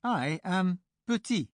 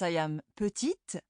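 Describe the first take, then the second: First: Petit slow, ending on i, t silent; masculine petit. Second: Petite with the final t sounded; feminine petite. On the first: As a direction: drop the t of petit slowly. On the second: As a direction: let the t of petite be heard. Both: Shown as a demonstration. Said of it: "And whereas".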